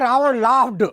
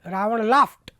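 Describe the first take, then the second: First: The word ends with a d sound. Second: The word ends with a t sound. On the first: This is how village speakers say it. The speaker calls it wrong. "तो अपन बोलेंगे Ravan लाफ्ड" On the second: This is the internationally accepted pronunciation. The speaker calls it right. "विश्व स्तर का उच्चारण क्या है"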